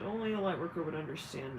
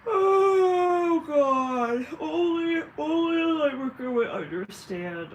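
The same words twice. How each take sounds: First: Said in the usual way. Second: High, loud drawn-out wail; wailing outburst. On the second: Acted. Light worker lamenting who would understand, loud high wail. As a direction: cry it out to the heavens, stretched long. Mock outburst before calm repeat.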